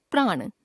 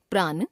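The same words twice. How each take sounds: First: Said in the usual way. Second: प्राण ending on dental n; tongue on the teeth to end प्राण; mispronounced nasal. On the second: Shown as a demonstration. Teacher showing a common error, प्राण with dental n. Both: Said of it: "नासिक्य व्यंजन संबंधी अशुद्धियां".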